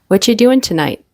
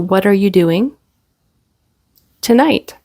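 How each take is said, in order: First: The 'are' is dropped and the T is weak. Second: Every word is said, including 'are'.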